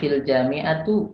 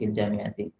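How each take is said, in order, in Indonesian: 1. Kata terakhir diakhiri dengan vokal u. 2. Kata terakhir diakhiri dengan vokal i.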